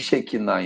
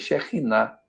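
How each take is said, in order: First: The middle consonant is a plain k sound. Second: The middle consonant is a guttural sound. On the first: The speaker calls it wrong. "Não tem Shekinah em hebraico" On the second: The speaker calls it right. "é R gutural"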